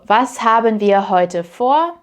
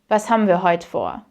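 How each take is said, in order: First: Haben is said as two full syllables. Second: Haben is squeezed into one syllable, ham.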